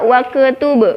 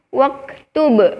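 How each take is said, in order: First: The k is released with a bouncing echo. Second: The k is released with a soft breath. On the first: The speaker calls it wrong. "Salah ya teman-teman. Harusnya hams bukan kol-kolah" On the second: The speaker calls it right. "seharusnya dibacanya"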